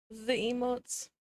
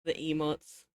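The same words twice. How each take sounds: First: "The emotes" drawn out slowly and higher, with the stress on "The"; delighted. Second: Said in the usual way. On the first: Real, not acted. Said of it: "repeated slower and higher". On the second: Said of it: "repeated with a new delivery".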